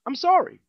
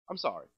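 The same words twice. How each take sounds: First: Loud, high sarcastic sorry; a mock loud sorry; mock loud apology. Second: Low, soft afterthought sorry; a quiet sheepish sorry; muttered apology. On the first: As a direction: blurt the sorry out. Mock apology, loud then quiet. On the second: Acted. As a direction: drop it to a mumble.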